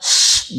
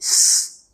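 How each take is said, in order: First: The consonant is a hushing sh sound. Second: The consonant is a thin hissing s sound. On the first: The speaker calls it right. "harusnya sh" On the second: The speaker calls it wrong. "jadi s"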